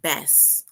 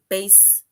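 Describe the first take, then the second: First: The vowel does not rhyme with case. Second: The vowel rhymes with the word case. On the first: It names a kind of spiny-finned fish. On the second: It names the largest string instrument.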